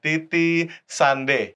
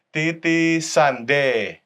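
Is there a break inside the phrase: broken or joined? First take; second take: broken; joined. First: The word is cut with a break inside. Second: The syllables flow together without a break. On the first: The speaker calls it wrong. "bukan Titi Sande" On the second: The speaker calls it right. "jangan diputus ya, melainkan disambung. Titi Sande gitu"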